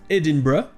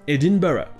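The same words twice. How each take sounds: First: The ending is squeezed into one short syllable. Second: The ending keeps two separate weak syllables. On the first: "en anglais britannique, ça se prononce" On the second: "en anglais américain, ça se prononce"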